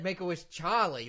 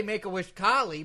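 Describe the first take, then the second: First: "Charlie" opened with a CH sound; Russian-accented "Charlie", CH replacing the hard K; intended pronunciation. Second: "Carly" with a hard K for Charlie; accented mispronunciation. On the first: Lawyer corrects host's hearing, "Charlie" with CH. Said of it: "but I said Make-A-Wish Charlie". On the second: Lawyer admits what host heard, "Carly" with hard K. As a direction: say "Carly", K sound replacing CH, Russian-accented. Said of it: "it did sound like you said Make-A-Wish Carly". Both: Acted.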